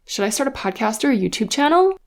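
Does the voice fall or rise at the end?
rise. The voice rises at the end, a yes-no question.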